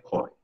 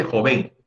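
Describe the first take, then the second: First: Said in the usual way. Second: "joven" wrongly stressed on the last syllable, jo-VEN; wrong final stress. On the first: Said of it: "se dice joven". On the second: Shown as a demonstration. Teacher showing students the mistake, "joven" stressed as jo-VEN. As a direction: say "joven" as jo-VEN, accent at the end. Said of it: "Pero no se dice joven".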